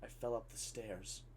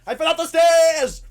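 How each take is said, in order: First: Low, very soft deadpan; hushed, toneless announcement. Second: High, very loud yell; hammed-up exasperated scream; frustrated shout. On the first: Retold or imitated. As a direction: state it quietly with no feeling. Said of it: "deadpan, silent, and then just goes". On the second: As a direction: scream it to make her understand. Boy repeats it, frustrated, shouting.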